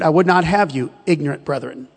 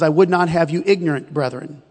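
First: The pause comes after "you". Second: The pause comes after "ignorant".

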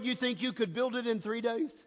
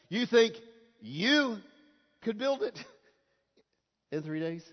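First: It is read in a plain, neutral way. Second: It is read with a mocking, incredulous tone.

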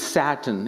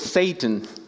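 First: It sounds like the word for the fabric. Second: It sounds like the name of the devil. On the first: It names a kind of cloth. The speaker calls it wrong. "You keep saying it's Satan. It's a cloth" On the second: It names the devil. The speaker calls it right. "You have to say Satan"

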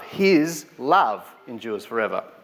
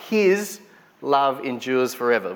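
First: The word love carries the main stress. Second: The word His carries the main stress. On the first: "let's try love" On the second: "What is His?"

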